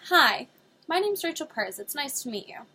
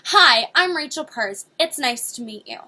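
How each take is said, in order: First: It is said in a calm, even voice. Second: It is said in a forceful, overbearing voice.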